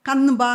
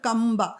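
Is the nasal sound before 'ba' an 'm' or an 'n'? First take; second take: n; m. First: The nasal before 'ba' is an 'n' sound. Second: The nasal before 'ba' is an 'm' sound. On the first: The speaker calls it wrong. "ಕನ್ಬ ಅಂತ ಹೇಳಲ್ಲ" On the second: The speaker calls it right. "ಅದು ಕಂಬ"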